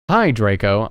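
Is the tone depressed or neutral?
neutral. It is said in a plain, neutral tone.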